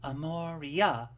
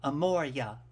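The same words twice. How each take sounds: First: The name is said with four syllables. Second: The name is said with three syllables. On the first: "So with four, if you say my name correctly" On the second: "if you need it to be three syllables"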